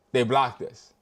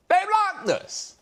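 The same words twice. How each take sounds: First: Said in the usual way. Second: They blocked us. in a much higher, slow whine; mock outraged wail; high disbelief. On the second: Shown as a demonstration.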